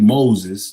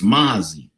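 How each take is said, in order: First: The name ends with a clear z sound. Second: The name ends without a clear z sound. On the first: The speaker calls it right. "that's how it's pronounced" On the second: The speaker calls it wrong. "he doesn't even pronounce the Z at the end"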